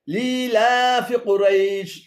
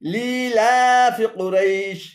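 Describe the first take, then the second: The two takes are said the same way.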